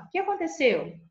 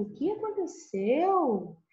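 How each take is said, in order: First: Quick, higher-pitched ACONTECEU, simply asked; plain question intonation. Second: ACONTECEU stretched slowly on a high, sweeping fall; amazed high-pitched question with a long ACONTECEU; question plus exclamation. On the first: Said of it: "somente o ponto de interrogação". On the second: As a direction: exclaim while asking, drawing out ACONTECEU. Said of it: "coloco a interrogação e a exclamação junto". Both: Shown as a demonstration.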